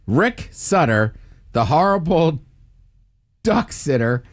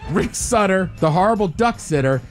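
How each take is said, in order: First: It is said at a normal pace. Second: It is said quickly.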